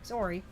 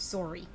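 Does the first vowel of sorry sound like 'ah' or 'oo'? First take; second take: oo; oo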